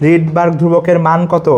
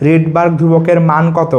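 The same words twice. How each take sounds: The two takes are said the same way.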